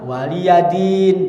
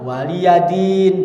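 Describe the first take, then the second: First: A 'ya' syllable is said before 'din'. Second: A 'ya' syllable is said before 'din'.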